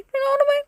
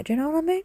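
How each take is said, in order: First: Very high squeaky falsetto; comic falsetto repeat; squeaky silly voice. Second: Pitched up, a little softer; playful higher question; raised silly voice. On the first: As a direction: squeak it out like a cartoon. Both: Pretend.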